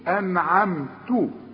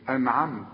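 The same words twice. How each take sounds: First: The word ends with a short vowel after t. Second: The word ends on a bare t sound. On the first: The reciter carries on to the next word. "فدي ايه انعمت" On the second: The reciter stops at this word. "عند الوقف تقول ايه انعمت، لان احنا بنسكن الحرف"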